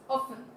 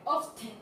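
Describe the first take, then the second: First: The t sound is left out entirely. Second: The t sound is pronounced in the middle. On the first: The speaker calls it right. "We only we're only pronounce often" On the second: The speaker calls it wrong. "we're not gonna say often"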